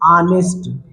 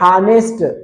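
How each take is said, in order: First: The word starts directly with a vowel sound. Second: The word starts with an audible h sound. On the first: The speaker calls it right. "लेकिन इसको पढ़ते हैं आनेस्ट" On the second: The speaker calls it wrong. "इसको ऐसे देखेंगे तो हानेस्ट लिखा है ना"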